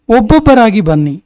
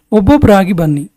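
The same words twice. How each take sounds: The two takes are said the same way.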